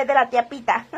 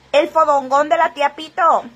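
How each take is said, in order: First: "tía Pita" said again ending clearly in a; corrected name. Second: Reads the name as "Pito" by mistake, ending in o; "tía Pito" said with a final o sound; misread name. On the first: Host corrects a viewer's misread name, casual correction. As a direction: fix it to "Pita", final a sound. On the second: Host reads a viewer's name wrong, casual misreading. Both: Real, not acted. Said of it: "Ah, no, ¿verdad?".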